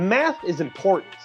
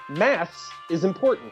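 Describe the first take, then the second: First: It is said in an American accent. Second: It is said in a British accent.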